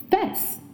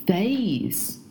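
First: The vowel is a short 'i' sound. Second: The vowel is the diphthong 'ay'. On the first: The speaker calls it wrong. "很多中国学生会把这个单词读成face" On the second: The speaker calls it right. "应该是face"

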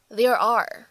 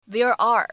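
The two takes are said the same way.

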